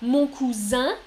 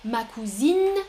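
First: "cousin" with rising, nasal final vowel; masculine form. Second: "cousine" ending in a clearly sounded N; feminine form. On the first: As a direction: lift the end of "cousin", koo-zan, no sounded N. (« cousin » masculin, finale nasale montante) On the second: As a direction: draw out the end of "cousine" as koo-zeen. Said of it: "féminin". (« cousine » féminin, avec N final bien sonore) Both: Shown as a demonstration.

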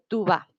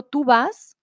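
First: "tú va" ending on the open a, no s; final S dropped. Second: "Tú vas" with the S sounded at the end; final S sounded. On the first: Teacher showing students the failed rule, "tú va" without its s. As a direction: say "tú va" with the final s left off. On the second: Teacher showing students the full form, "Tú vas" with final s. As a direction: say "Tú vas", ending on an audible s. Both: Shown as a demonstration. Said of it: "le quitamos la S".

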